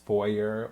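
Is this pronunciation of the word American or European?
American. It is said with an American pronunciation. "the American or European pronunciation"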